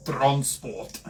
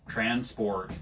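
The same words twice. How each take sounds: First: Clipped South African accent on transport. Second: Rhotic American accent on transport. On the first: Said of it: "Try and say in a South African accent". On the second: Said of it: "American accent". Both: Shown as a demonstration.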